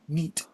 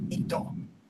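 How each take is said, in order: First: The word ends on the t sound. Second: The word ends with an added o vowel. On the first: This is the original English acronym. "It's actually it's NEET" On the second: This is how people in Japan say it. "but they pronounce it Nito"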